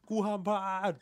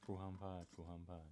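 First: Pitched high and pushed louder, panicking; tense high outburst. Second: Much softer, low muttered repeat; hushed echo. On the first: Barista imagining competition pressure, high tense outburst. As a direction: blurt it like the whole room is staring. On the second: Barista echoing his friend's panic, hushed and low. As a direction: murmur it back to yourself under your breath. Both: Pretend.

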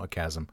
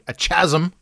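First: "chasm" with a hard k; quiet correction to KAZ-um; corrected pronunciation. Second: "chasm" with ch as in chair; wrong pronunciation. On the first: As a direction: say "chasm" as KAZ-um, lower and softer. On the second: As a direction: say "chasm" as CHAZ-um. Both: Shown as a demonstration. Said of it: "No, a chasm".

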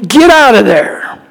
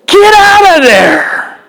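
First: Said in the usual way. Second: "Get out of there" much higher and slow, voice cracking; impassioned plea. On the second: Acted. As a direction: beg him to flee. Urging Samson to flee.

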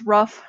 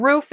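First: Roof said as "ruff"; imitated mispronunciation. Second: Said in the usual way. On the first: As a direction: shorten the vowel of roof so it rhymes with rough. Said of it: "roof is rough". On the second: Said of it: "just say words wrong".

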